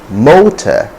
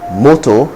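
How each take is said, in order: First: It is said in a standard English accent. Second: It is said in a Nigerian English accent. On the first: The speaker calls it right. "correct pronunciations, which are motor" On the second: The speaker calls it wrong. "Nigerian English lacks. So you hear moto"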